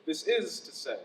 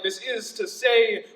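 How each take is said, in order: First: Low, soft landing on the phrase; soft, low repeat of the stock phrase; dropped-down cliché. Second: Slow, emphatic poetic cliché; drawn-out slam cliché; overused poetic phrase. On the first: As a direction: let it fall low and quiet. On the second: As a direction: intone it slowly as a tired stock line. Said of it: "same tired-ass phrases like". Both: Shown as a demonstration.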